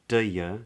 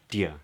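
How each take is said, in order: First: The second word is weakened to 'ya'. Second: The two words merge into one quick syllable. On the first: "or even do ya" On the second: "but just dia"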